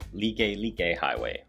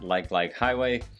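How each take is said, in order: First: It does not sound like the English word 'like'. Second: It sounds like the English word 'like' twice. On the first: The speaker calls it right. "which is how it's actually pronounced" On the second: The speaker calls it wrong. "It is not Like Like Highway"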